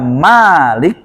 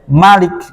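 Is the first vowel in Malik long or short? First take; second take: long; short. First: The first vowel is held long. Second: The first vowel is kept short. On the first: "ada yang membaca Malik panjang" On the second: "ada yang membaca pendek Malik"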